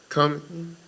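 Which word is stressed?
come. The word come is stressed more strongly. The speaker calls it right. "put more emphasis on the word come instead of in"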